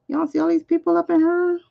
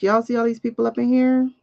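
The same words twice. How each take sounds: First: Hyped crowd callout. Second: Said in the usual way. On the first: Pretend. Repeats it higher, hyping crowd.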